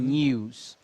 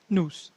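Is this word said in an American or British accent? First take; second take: British; American. First: A British accent, with a y-glide before the vowel. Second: An American accent, with no y-glide before the vowel. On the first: "British English eles realmente fazem o U sound" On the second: "E American English"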